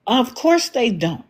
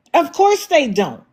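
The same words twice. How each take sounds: First: Said in the usual way. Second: "Of course they don't" pushed higher, with "course" hit harder; sarcastic emphatic repeat. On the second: Real, not acted. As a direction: lean on "course" the second time.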